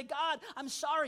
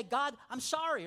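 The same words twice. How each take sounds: First: Slow, earnest sorry; mean every word, slowly; sincere apology. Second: Casual apology. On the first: Shown as a demonstration. Believer coming before God to apologize honestly, sincere. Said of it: "with an honest heart". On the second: Retold or imitated. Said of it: "just say".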